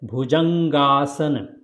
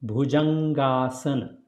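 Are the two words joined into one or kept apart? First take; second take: joined; joined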